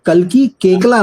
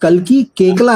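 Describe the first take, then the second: First: The surname is pronounced as 'Kekla'. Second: The surname is pronounced as 'Kekla'.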